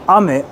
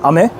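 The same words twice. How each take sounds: First: "ame" with the pitch falling after the first syllable; pitch accent. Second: "ame" with the pitch rising on the second syllable; pitch accent. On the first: Streamer explaining pitch accent, "ame" with a falling pitch. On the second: Streamer explaining pitch accent, "ame" with a rising pitch. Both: Shown as a demonstration. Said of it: "how we do is different".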